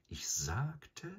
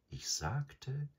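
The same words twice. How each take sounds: First: Breathy whisper, high rise. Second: Purring. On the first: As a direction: hush it, rising at the end. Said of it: "wiederholte Bagheera". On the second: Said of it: "schnurrte der Panther". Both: A narrator's reading.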